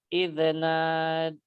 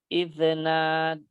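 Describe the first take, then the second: The two takes are said the same way.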